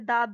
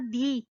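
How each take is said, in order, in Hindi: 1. शब्द 'the' का अंत एक छोटे 'uh' स्वर से होता है। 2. शब्द 'the' का अंत एक लंबे 'ee' स्वर से होता है। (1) "टी एच ई को अगर वो बोलते बोलते दा बोले" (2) "टी एच ई अगर वो दी प्रोनाउंस कर रहा है"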